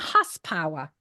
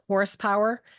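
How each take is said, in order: First: The word is said in a drawn-out Boston accent. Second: The word is said in a plain, standard accent. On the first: "she'll say it's a horsepower" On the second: "instead of saying horsepower"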